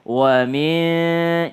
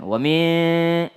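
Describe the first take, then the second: First: WA MIN unhurried, both sounds given full length; relaxed. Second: WA MIN with the hum cut short; rushed. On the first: Teacher modelling wa min, relaxed and drawn out. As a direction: stretch WA MIN at an easy pace. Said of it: "Berikan haknya ya". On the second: Teacher showing a too-quick wa min, clipped short. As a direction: hurry through WA MIN. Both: Shown as a demonstration.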